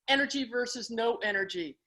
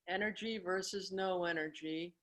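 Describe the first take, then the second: First: It is said with normal lively energy. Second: It is said flatly with very little energy.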